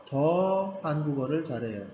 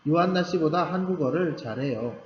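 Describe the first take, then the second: First: 더 stressed at the start, the rest falling away. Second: Said in the usual way. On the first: Shown as a demonstration. Teacher showing students 더 for emphasis, 더 stressed. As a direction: lean on the word 더 before 한국어를. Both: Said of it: "더는 강조할 수 있고요".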